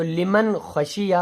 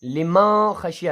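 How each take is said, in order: First: لمن with the nun sounded clearly before خشیہ. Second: لما خشیہ with the nun dropped into a nasal hum; wrong nasalised reading of لما خشیہ; wrong form without nun. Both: Shown as a demonstration. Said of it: "لما خشیہ نہیں پڑھنا ہے".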